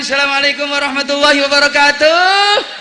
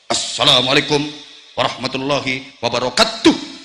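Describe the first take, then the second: First: It is said in a lively singer's stage voice. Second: It is said in a firm, clipped soldier's voice.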